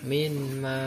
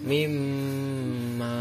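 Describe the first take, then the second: First: The n is pronounced clearly before the m. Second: The n merges into the m with a nasal hum. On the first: The speaker calls it wrong. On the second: The speaker calls it right.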